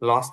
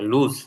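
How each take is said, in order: First: It has a short vowel and ends in s. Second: It has a long oo vowel and ends in z. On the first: The speaker calls it wrong. "লস না" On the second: The speaker calls it right. "এটা লুজ"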